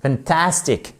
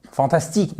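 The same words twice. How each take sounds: First: "fantastic" with TAS punched; English "fantastic", weak first syllable, strong TAS; stress on second syllable. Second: "fantastique" with French vowels and even stress; wrong French pronunciation. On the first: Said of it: "si vous ne prononcez pas l'accent tonique au bon endroit". (« fantastic », accent tonique sur TAS) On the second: (« fantastique » prononcé à la française) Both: Shown as a demonstration.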